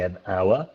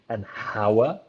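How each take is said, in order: First: The H at the start is silent. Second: The H at the start is pronounced. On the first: The speaker calls it right. "you don't hear the H there" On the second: The speaker calls it wrong. "You don't say"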